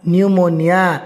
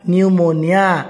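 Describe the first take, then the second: The two takes are said the same way.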